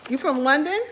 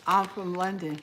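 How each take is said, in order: First: Louder, higher, rising at the end; surprised question. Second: Said in the usual way. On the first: Real, not acted. Asking a viewer about their home town, surprised. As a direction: echo it back as a surprised question. Asks back after reading the statement.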